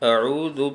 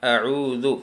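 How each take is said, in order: First: The middle consonant is a soft dh sound. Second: The same.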